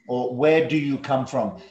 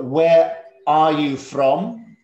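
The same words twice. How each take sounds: First: Said in the usual way. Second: Slow and deliberate, each word spaced out; slow model question. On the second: Shown as a demonstration. Teacher showing the class a question, slow and clear. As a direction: model the question slowly for the pupils. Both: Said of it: "There are two ways to ask this question".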